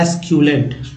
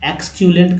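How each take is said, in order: First: The word begins with an 'es' sound. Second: The word begins with an 'eks' sound. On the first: The speaker calls it right. "Actual word meaning है एस्क्यूलेंट" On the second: The speaker calls it wrong. "एक्सक्यूलेंट कह दिया था, जो कि गलत है"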